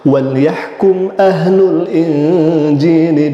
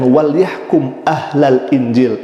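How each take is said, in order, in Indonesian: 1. Kata setelah yahkum berakhir dengan vokal u. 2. Kata setelah yahkum berakhir dengan vokal a. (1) "yang seharusnya" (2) "Panji Gumilang mengatakan"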